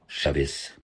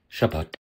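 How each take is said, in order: First: It is said in a Yiddish pronunciation. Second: It is said in a modern Hebrew pronunciation. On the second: "Hebreo moderno"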